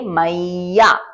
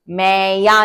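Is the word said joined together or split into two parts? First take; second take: joined; split. First: The word is said joined, with a doubled y. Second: The word is split into two separate parts. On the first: The speaker calls it right. "इसको हम कहेंगे मैया" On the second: The speaker calls it wrong. "मैं या नहीं होगा"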